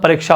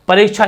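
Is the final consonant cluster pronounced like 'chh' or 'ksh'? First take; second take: ksh; chh. First: The final cluster sounds like 'ksh'. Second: The final cluster sounds like 'chh'. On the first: The speaker calls it right. "परीक्षा होता है" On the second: The speaker calls it wrong. "परीक्षा नहीं होता"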